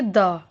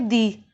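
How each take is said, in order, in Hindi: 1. इस शब्द का अंत छोटे 'uh' स्वर से होता है। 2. इस शब्द का अंत लंबे 'ee' स्वर से होता है। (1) "जहाँ पे कॉन्सोनेंट साउंड के साथ यूज कर रहे हैं द का" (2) "जब हम वॉवल साउंड के साथ द का यूज कर रहे हैं तो उसलिए क्या बोलेंगे?"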